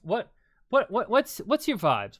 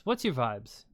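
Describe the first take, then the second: First: Excited. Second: Said in the usual way. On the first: Real, not acted. Excited repeated question to co-host.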